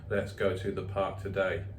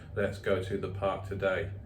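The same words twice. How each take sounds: First: The voice stays flat, sounding bored and unhappy. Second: The same.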